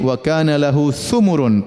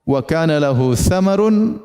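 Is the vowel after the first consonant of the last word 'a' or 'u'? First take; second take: u; a. First: The last word is read with a 'u' vowel. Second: The last word is read with an 'a' vowel. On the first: He had much wealth. "pakai dhamma" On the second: He had much fruit. "qiraah ada yang bacanya"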